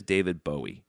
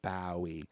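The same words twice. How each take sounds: First: "Bowie" said as BOH-ee; first syllable of "Bowie" rhymes with go; American Bowie. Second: "Bowie" said as BOW-ee, rhyming with wowie; quiet "Bowie" with first syllable like "now"; British-style Bowie. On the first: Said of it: "can't say Bowie". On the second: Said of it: "when you say [name]". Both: Shown as a demonstration.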